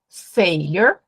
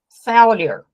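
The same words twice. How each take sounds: First: The first vowel sounds more closed. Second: The first vowel sounds more open. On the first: "Tem um som que é mais fechado" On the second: "tem um som mais aberto"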